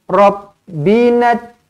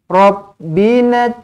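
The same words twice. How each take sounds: Both takes have the same delivery.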